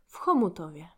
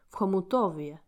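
First: The stress is on the first syllable. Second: The stress is on the third syllable.

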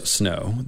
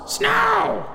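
First: It is murmured quietly. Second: It is screamed loudly in a raven voice.

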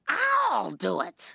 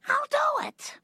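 First: The stress is on I'll. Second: The stress is on do, not on I'll.

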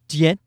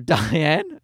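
First: The name is said with a French pronunciation. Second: The name is said with an English pronunciation. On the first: "She's French, so it's Dien" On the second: "I call her Diane"

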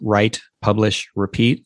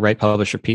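First: Each word is separated with a deliberate pause. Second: The words are run together without pauses.

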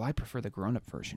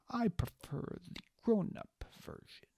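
First: It is said in the speaker's own voice. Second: It is said in an imitated Farston voice.

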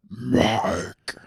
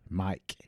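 First: The name is called out in an eerie, creepy voice. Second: The name is said plainly and normally.

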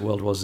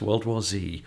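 First: The letter is said the British way, 'zed'. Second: The letter is said the American way, 'zee'.

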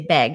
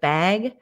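First: The vowel is a raised Minnesota vowel, like beg. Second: The vowel is a general American short a.

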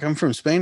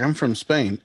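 First: It is said in an imitated Spanish accent. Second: It is said in the speaker's plain accent. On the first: The speaker calls it right. "but he was like" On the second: The speaker calls it wrong. "he didn't say it like that, 'cause that would be crazy if someone from Spain sounded like me"

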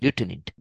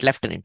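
First: It is said the American way. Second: It is said the British way.

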